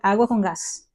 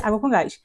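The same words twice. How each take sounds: First: It is said with Spanish pronunciation. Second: It is said with Portuguese pronunciation. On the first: "Água com gás em espanhol é" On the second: "Água com gás em português é"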